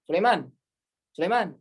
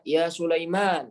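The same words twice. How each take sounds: First: "Sulaiman" quick with no vowel lengthening; Indonesian short call. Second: "Ya Sulaiman" with the long a drawn out slowly. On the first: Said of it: "kalau kita nggak ada tuh". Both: Shown as a demonstration.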